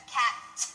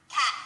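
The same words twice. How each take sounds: First: Cat with the tongue going up and then down; crisp voiceless t at the end of cat; right cat. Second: Cat with the tongue left up at the top, no release; Cat without dropping the tongue; wrong cat. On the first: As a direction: release the t of cat with a puff of air. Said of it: "Up and then down". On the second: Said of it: "instead of cat". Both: Shown as a demonstration.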